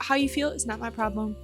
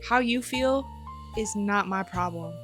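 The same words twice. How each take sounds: First: It is said lightly, like an empty slogan. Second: It is said firmly, meaning every word.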